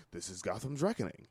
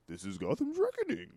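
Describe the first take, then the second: First: Low, soft menacing line; badass delivery. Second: Higher, rising like a question on reckoning; Bane as a question. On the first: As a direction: say it like a lower, quieter tough guy. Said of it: "If I was to say that and I was a badass". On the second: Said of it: "everything he says is a question". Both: Shown as a demonstration.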